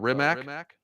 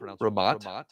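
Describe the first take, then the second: First: The name is said with an anglicized pronunciation. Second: The name is said with a native-style pronunciation. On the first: This is how people here usually say it. "we pronounce it probably" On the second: This follows the name's home country. "technically pronounced Ramat because it's the country it's from"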